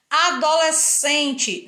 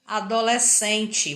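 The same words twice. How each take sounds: First: Adolescente drawn out slowly, each syllable held apart; slow spelled-out adolescente. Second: Said in the usual way. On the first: Shown as a demonstration. Teacher sounding out the word for the class, slow and syllable by syllable. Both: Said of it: "você não percebe o som das duas letras".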